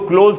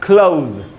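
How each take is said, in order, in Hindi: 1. स्वर एक ही शुद्ध 'o' ध्वनि है। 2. स्वर छोटे 'uh' से 'oo' की ओर फिसलता है। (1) "मैं इसको क्लोज क्यों नहीं बोल रहा? ... ये ओ नहीं होता" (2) "इसका उच्चारण होगा क्लोज"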